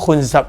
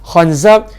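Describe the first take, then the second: First: The vowels are u, then a. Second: The vowels are a, then a. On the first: "dengan dhammah" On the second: "kha dengan zai baris atas"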